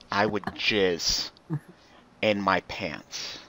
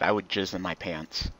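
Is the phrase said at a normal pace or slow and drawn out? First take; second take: slow; normal. First: It is said very slowly and sensually. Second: It is said at a normal, quick pace.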